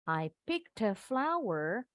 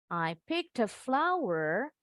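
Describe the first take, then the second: Both takes have the same delivery.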